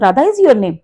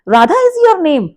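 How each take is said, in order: First: It is said as a plain statement. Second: It is said with stress as a question.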